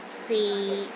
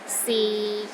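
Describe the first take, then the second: First: The pitch stays low and steady. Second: The same.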